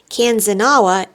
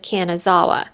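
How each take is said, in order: First: The name is said as kan-za-na-wa. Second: The name is said as ka-na-za-wa. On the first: The speaker calls it wrong. "I mistakenly said Kanzanawa" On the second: The speaker calls it right. "instead of Kanazawa"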